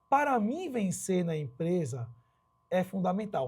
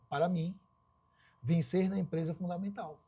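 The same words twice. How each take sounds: First: It is said without a pause after "mim". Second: It is said with a pause after "mim". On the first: "eu não dei pausa" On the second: "E se você der uma pausa aqui?"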